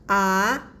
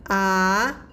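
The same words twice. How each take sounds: First: The pitch rises from middle to high. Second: The pitch rises from middle to high.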